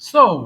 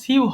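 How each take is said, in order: First: The word sounds like so, rhyming with go. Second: The word sounds like syoo, rhyming with new. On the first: The speaker calls it right. "এটা সঠিক উচ্চারণ সো" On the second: The speaker calls it wrong. "এটা দেখে মনে হচ্ছে সিউ হবে"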